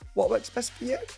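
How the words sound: The pitch rises at the end. It is a tentative question. The speaker calls it wrong. "not ... You don't go up"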